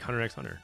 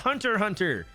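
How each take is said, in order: First: The letter x is said between the words. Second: The two words are said with nothing between. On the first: The title is read as written, to tease. The speaker calls it wrong. "I just keep trolling her" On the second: The title means someone who hunts hunters. The speaker calls it right. "so he's a hunter hunter"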